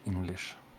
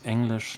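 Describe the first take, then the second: First: The first vowel is an English 'i' sound. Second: The first vowel sounds close to 'a'. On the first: The speaker calls it wrong. "not English" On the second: The speaker calls it right. "We say English, as if there was an A ahead"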